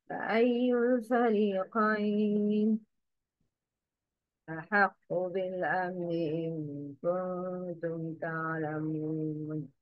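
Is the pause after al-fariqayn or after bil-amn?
al-fariqayn. The pause comes after al-fariqayn. The speaker calls it wrong. "The wrong is"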